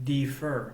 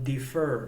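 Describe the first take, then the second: No difference in how they are said.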